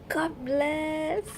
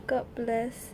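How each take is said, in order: First: High, drawn-out exclamation of relief; delighted high-pitched blessing; thrilled thanks. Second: Said in the usual way. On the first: Real, not acted. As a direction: squeal it gratefully, pitched up. Rejoicing over a lucky card.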